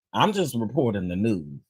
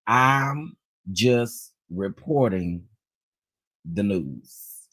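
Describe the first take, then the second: First: Said in the usual way. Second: "I'm... just... reporting... the news", spaced out word by word; slow deliberate emphasis. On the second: Real, not acted. Host's disclaimer to Bishop Jakes, "I'm just reporting the news" slow and deliberate. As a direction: stretch "I'm just reporting", pause, drop low on "the news".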